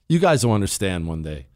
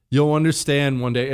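First: Put-on grumpy old man. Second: Said in the usual way. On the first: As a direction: grumble it like a crotchety old man. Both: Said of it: "think I just sound like a grumpy old man".

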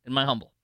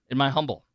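Both takes have the same delivery.

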